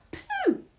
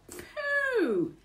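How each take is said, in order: First: Put-on very high, short baby squeak; squeaky loud baby echo. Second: High, drawn-out falling exclamation; long high disgusted swoop; disgusted burglar. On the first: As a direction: mimic it like a baby. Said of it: "says the baby". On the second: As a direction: recoil from a bad smell. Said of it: "he says". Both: A narrator's reading.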